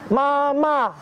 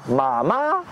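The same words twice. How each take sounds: First: "mama" high and level; first tone mama. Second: "mama" low, dipping and rising; third tone mama. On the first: Teacher demonstrating the tongue twister, high level "mama". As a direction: keep "mama" flat on a high pitch. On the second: Teacher demonstrating the tongue twister, low rising "mama". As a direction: scoop "mama" low then up. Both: Shown as a demonstration. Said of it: "créer des virelangues comme".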